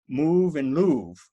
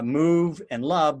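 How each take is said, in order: First: Love has the same long vowel as move. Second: Love has a short vowel, unlike move. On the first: This is how the words sounded in Shakespeare's time. "but it was move and louvre" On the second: This is how the words sound in modern English. "move and love don't rhyme in modern English"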